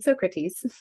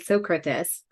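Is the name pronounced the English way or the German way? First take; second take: English; German. First: The name is pronounced the English way. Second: The name is pronounced the German way. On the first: "Everyone else probably calls it Socrates" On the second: "I say, Socrates, because obviously I'm German and I have my Latin certification"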